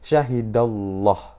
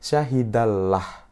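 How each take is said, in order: First: The L sound is thick and heavy. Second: The L sound is thin and light. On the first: The speaker calls it right. "Yang betul harus ditebalkan" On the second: The speaker calls it wrong. "Yang salah adalah kita ketika kita membaca menjadi syahidallah"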